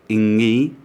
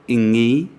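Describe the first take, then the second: No difference in how they are said.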